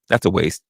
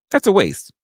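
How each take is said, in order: First: Said in the usual way. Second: "That's a waste" pitched up high with weight on "That's"; emphatic dismissal. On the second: Real, not acted. Scoffing at the Doctor Pepper claim, emphatic. Repeating, louder and higher.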